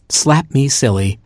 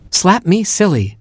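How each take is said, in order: First: Said in the usual way. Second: High, incredulous repeat; taken-aback echo. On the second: Acted. Chimp hearing his new name, high startled echo.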